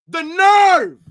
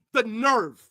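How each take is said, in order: First: The nerve yelled much louder and higher; outraged shout. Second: Said in the usual way. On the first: Real, not acted. Fan outraged at a player's Instagram post, yelling. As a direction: explode on The nerve in disbelief. Repeats phrase, then explodes.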